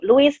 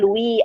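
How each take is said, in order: First: The final s is pronounced. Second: The final s is silent. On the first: "tulisannya Louis Vuitton" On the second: "dibacanya Louis, S-nya nggak dibaca"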